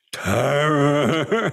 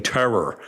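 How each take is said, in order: First: Higher-pitched, long rolled R's, mock Tamil English; Tamil English accent. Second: Said in the usual way. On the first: Guru repeating his word to the speaker, imitated Tamil English accent. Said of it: "with the rolling R's and the, you know, the Tamil English accent".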